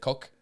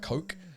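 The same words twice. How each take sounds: First: The word is said with a French accent. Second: The word is said with an English accent. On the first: It can sound like a rude word. "si tu le prononces à la française" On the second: It names the soft drink. "en anglais, euh, pour euh, un coca, on dit a coke"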